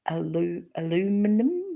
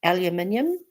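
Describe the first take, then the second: First: Aluminum said a-LOO-mi-num, halting first; aluminum the American way, without the "yum"; non-Kiwi pronunciation. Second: Aluminium said the Kiwi way, al-yu-MIN-yum; aluminium as New Zealanders say it, al-yu-min-yum; Kiwi pronunciation. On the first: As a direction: feel out aluminum carefully, stress on LOO. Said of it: "instead of, I've gotta think about it". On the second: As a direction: say aluminium with a "yum" ending, five syllables. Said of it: "how Kiwis say aluminium". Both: Shown as a demonstration.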